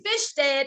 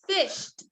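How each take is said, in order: First: The ending is an extra syllable, like 'id'. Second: The ending is a single t sound. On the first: The speaker calls it wrong. "that's not the proper way to pronounce it" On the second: The speaker calls it right. "This is E D that says t"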